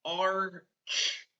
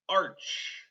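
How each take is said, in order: First: ARCH split into "ar", pause, "ch"; finger-spelled arch. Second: Said in the usual way. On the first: Shown as a demonstration. Teacher finger-spelling for pupils, sounded out slowly. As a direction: sound out ARCH in two separate parts. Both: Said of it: "I finger spell".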